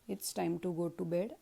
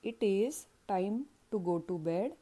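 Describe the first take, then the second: First: It is reduced to one syllable, its. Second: It is said as two separate words.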